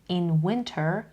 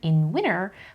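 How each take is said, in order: First: The t in winter is clearly pronounced. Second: The t in winter is dropped after n.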